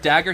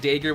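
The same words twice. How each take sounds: First: The word is pronounced the usual way. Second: The word is pronounced in an odd way. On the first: The speaker calls it right. "doesn't know how to pronounce the word dagger" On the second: The speaker calls it wrong. "He pronounces it dagger, which I think is really funny"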